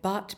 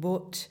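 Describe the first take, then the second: First: The vowel is said the general, non-Yorkshire way. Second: The vowel is said the Yorkshire way.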